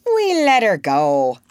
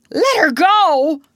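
First: Pleased report, falling away at the end; complacent. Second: Loud, high, drawn-out cry of disbelief; outraged cry. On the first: Smee tells Hook of the release, complacently. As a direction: report it as a job well done. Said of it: "Smee answered complacently". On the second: Hook hears his captive was freed, crying out. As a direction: cry it out, aghast and much louder. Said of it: "cried Hook". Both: A narrator's reading.

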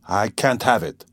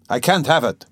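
First: Restrained irritable refusal; irritated but still held in; a touch of irritation, first protest; mild irritation. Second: Higher-pitched, insistent irritable refusal; exasperated, more forceful protest; irritable repetition. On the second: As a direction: push it out, irritated and rising. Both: A narrator's reading. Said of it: "he repeated irritably".

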